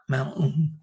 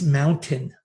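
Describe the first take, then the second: First: The word is pronounced in sloppy nonstandard form. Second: The word is pronounced in careful standard form. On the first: The speaker calls it wrong. "not mountain" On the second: The speaker calls it right. "it's mountain"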